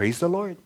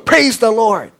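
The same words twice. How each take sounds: First: It is said at normal volume. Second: It is yelled more loudly.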